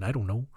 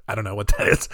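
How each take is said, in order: First: Canadian voice. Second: Said in the usual way. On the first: Retold or imitated. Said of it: "the Jespersons were like".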